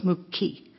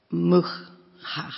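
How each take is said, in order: First: "muki" with a clean plain k sound; the correct flour word "muki", plain k. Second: "mucha" with a guttural ch; wrong guttural word. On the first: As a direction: say "muki" with a simple k, not a throaty ch. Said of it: "It's the k". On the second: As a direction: say "mucha" with a rough throaty ch. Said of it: "not the guttural ch". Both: Shown as a demonstration.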